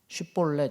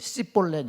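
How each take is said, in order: First: The word begins with a sh sound. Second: The word begins with a plain s sound. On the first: It marks the speaker as one of the local group. "쉿볼렛 이렇게 하면은" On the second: It marks the speaker as an outsider. "이거를 씨볼렛 이렇게 했던 것 같아요"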